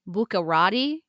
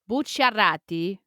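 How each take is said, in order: First: The name is said with an English-style pronunciation. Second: The name is said with an Italian-style pronunciation. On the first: The speaker calls it wrong. "in English, you can pronounce that last name as" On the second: The speaker calls it right. "is how I would say it"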